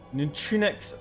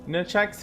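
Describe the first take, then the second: First: The name sounds longer, with three syllables. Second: The name sounds short, like two syllables. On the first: The speaker calls it right. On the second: The speaker calls it wrong.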